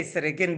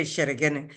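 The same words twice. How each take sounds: First: "Esregene" with a plain s sound; standard form, without sh. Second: "Esheregene" with sh in place of s; dialect sh sound. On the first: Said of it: "They won't say". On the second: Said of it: "they will say". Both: Shown as a demonstration.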